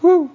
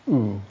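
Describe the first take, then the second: First: The ooh is said without a sad tone. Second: The ooh is said in a sad tone. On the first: The speaker calls it wrong. "It's not ooh" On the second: The speaker calls it right. "It's ooh. It's a sad thing"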